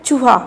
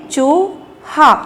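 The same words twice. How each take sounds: First: Said in the usual way. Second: "चूहा" slowly split, long rising "चू", then "हा"; sounding out. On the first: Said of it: "ये picture क्या है". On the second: Shown as a demonstration. Teacher showing children how to read it, sounded out. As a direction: stretch "चूहा" in two separate syllables. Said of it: "तो क्या पढ़ेंगे".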